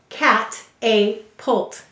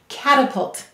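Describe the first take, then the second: First: The middle vowel is a clear long 'A' sound. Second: The middle vowel is a weak 'uh' sound. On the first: It is said this way to help with spelling. "we will say to spell cat-a-pult" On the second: It is said the normal way the word is spoken. "Notice we use the schwa sound there"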